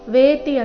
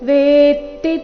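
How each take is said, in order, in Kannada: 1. t ಧ್ವನಿ ಹ್ರಸ್ವ ಮತ್ತು ಒಂದೇ ಆಗಿದೆ. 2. t ಧ್ವನಿ ದ್ವಿತ್ವ ಮತ್ತು ಹಿಡಿದಿರುತ್ತದೆ. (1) "ವೇತಿ ಅಂತ ಇಲ್ಲ"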